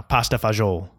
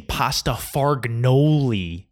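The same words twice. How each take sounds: First: Fagioli as fa-ZHOOL, final vowel dropped; Italian-American pronunciation. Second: Fargnoli slowly as farg-NO-lee, with a hard G; mangled Italian word. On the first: Shown as a demonstration. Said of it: "I'm gonna say like an asshole now". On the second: Retold or imitated. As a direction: proudly draw out the wrong pasta fargnoli. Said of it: "You say something completely wrong".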